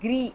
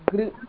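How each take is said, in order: First: The r is followed by a clear 'ee' vowel. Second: The r is said without a following 'ee' vowel. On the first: The speaker calls it wrong. "It's not Gri" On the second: The speaker calls it right. "it's Gr"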